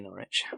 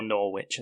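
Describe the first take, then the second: First: Said in the usual way. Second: NORWICH as "Nor-witch"; mock mispronunciation. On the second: Podcaster teasing how outsiders say the city, mispronounced Norwich. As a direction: say Norwich in two full parts, "nor-witch". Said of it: "as they would".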